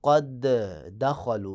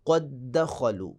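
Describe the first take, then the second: First: The two d sounds are pronounced separately. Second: The two d sounds merge into one doubled d. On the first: The speaker calls it wrong. "यानी आपने ये नहीं करना क़द दख़लू, ये गलत हो जाएगा" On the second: The speaker calls it right. "बल्कि इदगाम कर देना है, गोया कि एक दाल बन जाएगी और ऊपर शद लग जाएगा"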